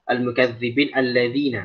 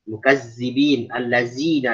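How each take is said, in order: First: The consonants are soft dh sounds. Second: The consonants are plain z sounds. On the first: The speaker calls it right. "di sini ada huruf zal" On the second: The speaker calls it wrong. "itu keterlaluan ya. Sebenarnya tidak baik"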